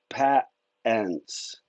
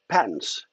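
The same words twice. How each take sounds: First: The word is said in a local Utah accent. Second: The word is said in a general American accent.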